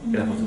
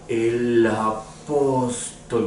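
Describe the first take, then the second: First: It is said fast. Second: It is said slowly.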